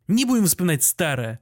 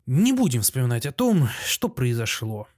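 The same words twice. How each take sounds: First: Mildly affectionate, conciliatory tone; tender. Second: Subdued forgiveness, slowing at the end; moved, sighing. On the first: Postmaster turns back to the doctor, tender. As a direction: turn kindly to a dear friend. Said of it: "нежно обращаясь к Андрею Ефимычу". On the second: Friend forgives the doctor at the post office, moved. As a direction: let it go with a sigh. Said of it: "сказал со вздохом растроганный Михаил Аверьянович". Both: A narrator's reading.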